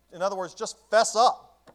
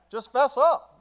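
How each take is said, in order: First: Slow, higher, louder call to fess up; fervent preaching. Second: Much higher, louder cry of fess up; preacher shouting at the sinner; shouted plea. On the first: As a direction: plead it out, slowly and loud. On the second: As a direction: shout it to the back pew. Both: Shown as a demonstration. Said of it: "repeated louder".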